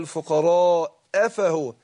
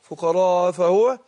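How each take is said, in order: First: The glottal stop before fahuwa is clearly pronounced. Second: The glottal stop before fahuwa is dropped. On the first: The speaker calls it right. "يبقى انا احقق الهمزه" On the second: The speaker calls it wrong. "كتير بياكلوا الهمزه يقول فقراء افهو، راحت الهمزه"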